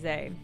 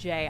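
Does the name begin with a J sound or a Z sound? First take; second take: Z sound; J sound. First: The name begins with a Z sound. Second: The name begins with a J sound. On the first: The speaker calls it wrong. "I keep wanting to say Zay, because that's what it looks like to me" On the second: The speaker calls it right. "I guess it's pronounced Jay"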